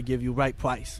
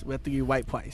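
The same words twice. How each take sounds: First: Said in the usual way. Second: R softened to W in "white price"; "white price" in a put-on Asian accent; mock Asian accent. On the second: Car salesman joking about an Asian customer, mock Asian accent. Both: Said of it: "you're Asian".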